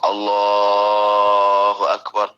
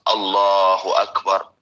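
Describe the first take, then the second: First: It is stretched out a little longer. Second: It is said at a normal, brief length. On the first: This is the takbir for bowing. "agak dipanjangin dikit" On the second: This is the ordinary opening takbir. "Jadi biasa"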